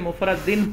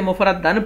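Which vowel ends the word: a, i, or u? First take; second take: i; a. First: The word ends with an -in sound. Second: The word ends with an -an sound. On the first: The word describes the meaning. "अगर तो इसे मुफरद दिन पढ़े" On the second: The word describes the state of the act of coining. "अगर इसे मुफरद दन पढ़ें"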